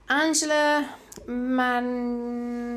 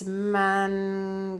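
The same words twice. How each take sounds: First: Mancione said slowly the Italian way, man-CHO-neh; Italian-style pronunciation. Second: Mancione said slowly the English way, man-see-OWN; anglicised pronunciation. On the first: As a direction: sound out Mancione carefully as an Italian name. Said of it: "I'm pronouncing that like it's an Italian name". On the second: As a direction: try Mancione again as a plain English name. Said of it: "So maybe it's not". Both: Shown as a demonstration.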